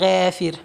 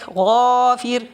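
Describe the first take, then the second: First: The first consonant is light and thin. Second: The first consonant is heavy and full. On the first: The speaker calls it wrong. "you don't say" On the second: The speaker calls it right. "make sure your ghain is always heavy"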